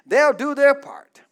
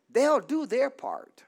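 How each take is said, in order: First: "They'll do their part" louder, hitting "their"; louder emphatic repeat. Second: Said in the usual way. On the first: Shown as a demonstration. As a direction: say it again, louder and firmer. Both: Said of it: "Let me say it again".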